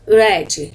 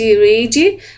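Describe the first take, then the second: First: The vowel sounds like in red. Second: The vowel does not sound like in red. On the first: It is the simple past. "Essa pronúncia de read é similar à pronúncia de, de vermelho, red" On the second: It is the present tense. "no presente read"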